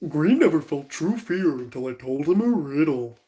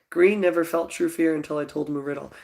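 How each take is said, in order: First: It is said in a deep Goofy impression. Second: It is read in the speaker's normal voice.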